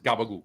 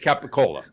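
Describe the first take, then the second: First: It is said as gabagool, dropping the final L. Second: It is said with full Italian sounds. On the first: "if you say it Brooklyn... you don't even say the L at the end" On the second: "in Italy it's capicola"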